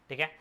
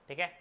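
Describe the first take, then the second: Both takes have the same delivery.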